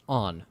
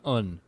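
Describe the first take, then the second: First: The vowel sounds like the one in 'on'. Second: The vowel sounds like the one in 'up'. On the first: The speaker calls it right. "That is on" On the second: The speaker calls it wrong. "not un"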